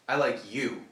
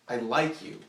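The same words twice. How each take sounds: First: The stress is on "you". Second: The stress is on "like".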